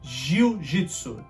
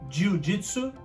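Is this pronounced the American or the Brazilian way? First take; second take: Brazilian; American. First: It is said with a Brazilian Portuguese pronunciation. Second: It is said with an American English pronunciation. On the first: "In Brazil, in Portuguese, we say" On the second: "here in America, you'd say"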